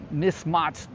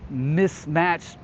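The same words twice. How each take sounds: First: "mismatched" with a broad AH in the second syllable; mock British pronunciation. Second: Said in the usual way. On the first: Repeats word in mock British vowel.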